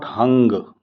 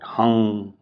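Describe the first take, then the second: First: The word ends with an audible G sound. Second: The word stops before any G sound. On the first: The speaker calls it wrong. "this is not hung. You don't use a G at the end" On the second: The speaker calls it right. "Just stop before you pronounce the G"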